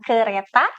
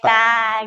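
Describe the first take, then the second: First: The word is said with all three syllables. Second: The middle syllable is dropped, leaving two syllables. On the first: This is the adult target form. The speaker calls it right. "bunyi yang seharusnya diujarkan "kereta"" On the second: A young child simplifies the word. The speaker calls it wrong.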